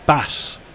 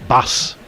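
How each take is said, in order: First: The name ends with an s sound. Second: The same.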